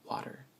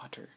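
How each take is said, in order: First: The middle consonant sounds like a D. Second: The middle consonant sounds like a T. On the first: "like with a D" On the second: "instead of"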